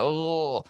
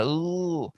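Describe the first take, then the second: First: Soft, high mock ooh of a singer; imitated singer's ooh. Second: Soft, high mock ooh of a singer, said a second time; imitated singer's ooh. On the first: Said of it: "he's got a little bit of that". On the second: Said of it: "you didn't have as much of that". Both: Shown as a demonstration.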